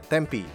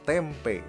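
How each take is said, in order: First: The name is read differently from its spelling. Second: The name is read just as it is spelled. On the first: "tapi bacanya Tempe" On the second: "Bener-bener tuh T-E-M-P-E"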